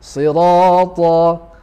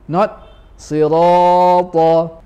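First: The vowel after r lasts two counts. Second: The vowel after r is held longer. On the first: The speaker calls it right. "Ra is sufficient with two harakat" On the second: The speaker calls it wrong.

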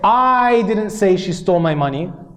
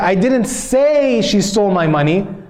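First: The word I carries the stress. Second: The word say carries the stress. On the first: Someone else said it. "because I emphasized the word I" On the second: It was implied but not said. "maybe I implied it, but I didn't say it"

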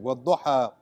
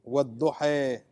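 First: The final vowel is an open a sound. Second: The final vowel is a raised, e-like sound. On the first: "the a, at the end of ata, like cat" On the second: "Imala is to pronounce the a as in cake"

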